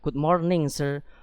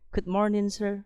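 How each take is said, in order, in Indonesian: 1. Bunyi ng di akhir kata morning diucapkan dengan jelas. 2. Bunyi ng di akhir kata morning dihilangkan. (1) "don't ever say what good morning anymore" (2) "seolah-olah kita menghilangkan engnya di situ"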